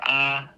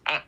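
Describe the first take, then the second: First: Said in the usual way. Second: "Ah" cut off sharply in the throat; final glottal stop. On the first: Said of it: "instead of". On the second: Shown as a demonstration. Teacher demonstrating a final glottal stop. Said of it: "a glottal stop at the end".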